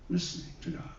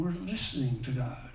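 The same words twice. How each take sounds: First: Soft whisper, breath only; whispered echo. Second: Said in the usual way. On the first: Real, not acted. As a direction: echo the words under your breath. Echoed in a whisper.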